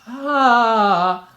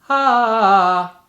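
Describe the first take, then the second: First: The vowel sounds breathy with air leaking through. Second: The vowel sounds clear with no escaping air. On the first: The speaker calls it wrong. "a sort of air leak" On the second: The speaker calls it right. "I try to make a clean sound"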